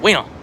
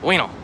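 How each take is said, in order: First: Said fast with the oo sound dropped. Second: Said fast with the oo sound dropped.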